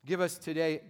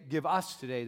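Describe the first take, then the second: First: Said in the usual way. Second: "us" picked out in the phrase; stress on US. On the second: Shown as a demonstration. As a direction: lean on "us", the plural word. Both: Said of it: "the whole thing is gonna be plural".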